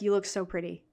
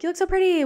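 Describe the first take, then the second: First: The pitch ends low on the last word. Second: The pitch ends high on the last word. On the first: The speaker calls it right. "make it lower" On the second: The speaker calls it wrong. "with like a high end at the end where it's like pretty"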